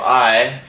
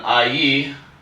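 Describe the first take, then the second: First: It is pronounced the American way. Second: It is pronounced the French way.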